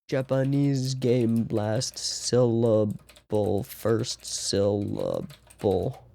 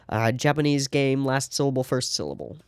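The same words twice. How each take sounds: First: Slow, searching for the word. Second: Said in the usual way. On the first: Real, not acted. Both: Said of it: "I forget what it's called".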